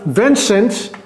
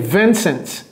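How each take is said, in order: First: The name is pronounced the French way. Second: The name is pronounced the English way.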